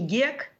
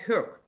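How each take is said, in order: First: The name begins with a hard G sound. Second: The name begins with a breathy H sound. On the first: This is the Russified form of the surname. The speaker calls it wrong. "на самом деле его фамилия не Гек" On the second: This is the original Swedish form of the surname. The speaker calls it right. "а Хёк"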